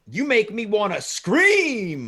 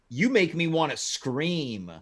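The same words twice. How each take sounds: First: The word scream is said loudly, almost shouted. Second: The word scream is said at normal volume. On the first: The speaker calls it right. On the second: The speaker calls it wrong.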